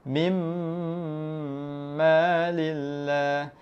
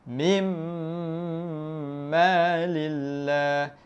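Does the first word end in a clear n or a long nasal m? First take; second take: long nasal m; long nasal m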